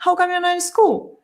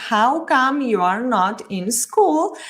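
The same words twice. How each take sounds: First: Quick and joined, How come you're not in school as one breath; natural fast English. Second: Very slow, each word separate; slow textbook English. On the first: Teacher contrasting the natural native speed for students. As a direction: run the words together like a native. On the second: Teacher contrasting the slow textbook version for students. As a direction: spell out every word: How come you are not in school. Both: Shown as a demonstration. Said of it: "Fíjense la diferencia".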